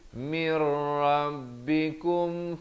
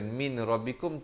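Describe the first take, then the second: First: The n merges into the r without nasal sound. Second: An n sound is pronounced before the r. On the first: The speaker calls it right. "Mir masuk tanpa dengung di sini" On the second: The speaker calls it wrong. "bukan min rabbikum"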